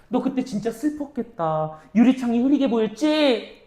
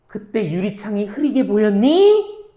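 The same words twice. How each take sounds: First: 공감하며 달래듯, "보였지" 끝은 내려서; "보였지"를 묻지 말고 위로하듯 내려 말하기; 위로하는 말투. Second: "보였니" 끝을 올려 묻기; "보였니"를 끝에서 올려 진짜 질문처럼. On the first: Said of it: "위로해 주는 거야". ("보였지" 끝을 내린 공감 어조) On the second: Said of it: "물어보는 거야". ("보였니" 끝을 올린 의문 억양) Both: Shown as a demonstration.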